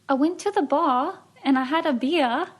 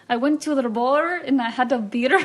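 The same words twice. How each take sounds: First: It is said in a British accent. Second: It is said in an Irish accent.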